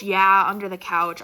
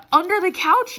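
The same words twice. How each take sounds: First: Said in the usual way. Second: Loud, higher rising disbelief; can't believe where it was; incredulous question. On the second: Real, not acted. Telling viewers where the dog pooped, loud incredulous rise.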